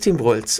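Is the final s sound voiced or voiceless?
voiceless. The final s sound is voiceless. "Schwaben kennen kein stimmhaftes S. Für mich ist es Tim Walz"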